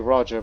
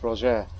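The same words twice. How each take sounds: First: The name is given an English pronunciation. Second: The name is given a French pronunciation. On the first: "you English speakers and Americans say Roger" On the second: "I believe it's Roger. Is how you say it in French"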